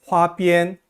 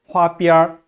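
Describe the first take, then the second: First: The word ends without an r-coloured sound. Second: The word ends with an r-coloured sound.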